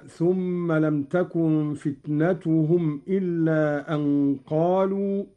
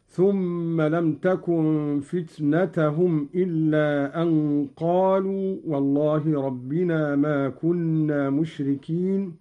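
First: Said in the usual way. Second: "فتنتهم" said fitnatahum, with -ta not -tu; accusative fitnata. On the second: Shown as a demonstration. Teacher demonstrating Qalun, "فتنتهم" as fitnatahum. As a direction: put an a after the last t of "فتنتهم": fitnatahum. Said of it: "فتنة بالنصب هكذا".

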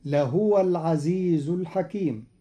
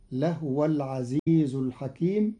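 First: Said in the usual way. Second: لهو said lahwa, the h without a vowel; Qalun reading. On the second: Shown as a demonstration. Teacher reciting the verse again to show the lightened ha. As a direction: run لهو together as lahwa. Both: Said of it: "بإسكان الهاء تخفيفا".

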